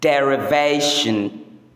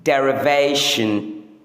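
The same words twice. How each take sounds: Both takes have the same delivery.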